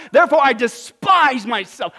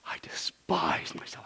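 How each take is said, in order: First: Loud, high, declaimed self-reproach; impassioned response. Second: Soft, slow, whispery moan; moaning in despair. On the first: Preacher reads Job's answer aloud, forceful. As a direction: proclaim it at full preaching force. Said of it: "What's his response?". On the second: Preacher imagines Job's humbled answer, despairing moan. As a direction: groan it slowly in acted despair. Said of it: "did Job literally moan in despair?". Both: Acted.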